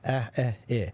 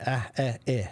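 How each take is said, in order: No difference in how they are said.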